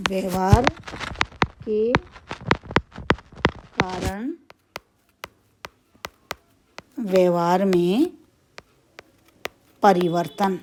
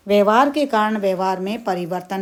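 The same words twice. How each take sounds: First: Word by word with long pauses; slow dictation. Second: Said in the usual way. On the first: Shown as a demonstration. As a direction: spell it out slowly for notes. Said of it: "dictating word by word". (रुक-रुक कर बोलना) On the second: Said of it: "repeats the definition normally".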